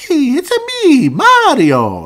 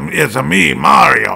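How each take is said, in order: First: It imitates the video game Mario voice. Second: It imitates the cartoon Mario voice. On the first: The speaker calls it wrong. "Like that doesn't sound good" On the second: The speaker calls it right. "that's what Mario should sound like. Kind of like in the cartoon"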